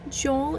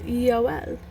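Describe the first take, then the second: First: The name is said with an English pronunciation. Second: The name is said with a Hebrew pronunciation. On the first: "Joel is like an anglicized pronunciation" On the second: "in Hebrew it's Yoel"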